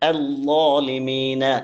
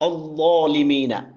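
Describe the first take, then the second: First: The opening vowel sounds light and thin. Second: The opening vowel sounds heavy and dark, like o. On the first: The speaker calls it right. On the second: The speaker calls it wrong.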